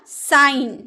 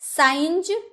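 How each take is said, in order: First: It ends with a plain 'n' sound. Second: It ends with a 'nj' sound. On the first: The speaker calls it right. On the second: The speaker calls it wrong. "साइंज नहीं ना"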